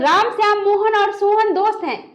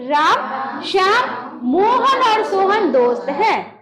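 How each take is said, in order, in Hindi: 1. नाम बिना किसी विराम के एक साथ जुड़े हुए हैं। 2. छोटे विराम नामों को एक-दूसरे से अलग करते हैं। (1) "ऐसे नहीं बोलना है।" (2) "तो यहाँ पे ऐसे बोलेंगे"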